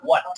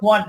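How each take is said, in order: First: "what" said as the model pronunciation; correct pronunciation. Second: "what" the way many wrongly say it; common mispronunciation. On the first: Teacher modelling the word for students, correct "what". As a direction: give a short, clean "what" to copy. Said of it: "উচ্চারণ কি হবে?". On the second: Teacher showing students a common mistake, mispronounced "what". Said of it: "what বলি, উচ্চারণ what না". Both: Shown as a demonstration.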